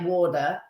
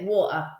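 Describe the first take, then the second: First: The middle T sounds like a soft D. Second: The middle T is cut out entirely. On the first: "in America, they say water, and the T becomes a D sound" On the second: "But we say water. We literally cut it"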